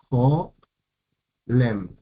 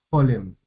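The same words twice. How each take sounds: First: Jolem slowly broken as jo... lem; long pause between jo and lem in jolem; split into syllables. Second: Said in the usual way. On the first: Shown as a demonstration. Teacher counting vowels in jolem, syllable by syllable. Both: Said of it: "tenemos dos sílabas".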